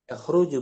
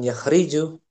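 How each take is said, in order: First: The middle vowel is a rounded 'u'. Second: The middle vowel is a front 'i'. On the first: The speaker calls it right. "ini didombakan yakhruju" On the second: The speaker calls it wrong. "bukan yakhriju"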